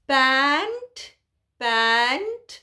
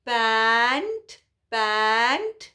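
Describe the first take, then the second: No difference in how they are said.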